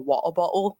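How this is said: It is said in a British accent.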